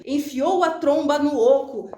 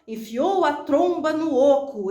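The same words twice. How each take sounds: First: Said in the usual way. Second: Slow "Enfiou a tromba no oco" drawn out, trailing on; trailing suspense. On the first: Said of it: "Tem reticências aqui". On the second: Shown as a demonstration. Teacher leaving the line hanging for suspense. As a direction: let "oco" hang in suspense. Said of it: "E eu faço essa continuação".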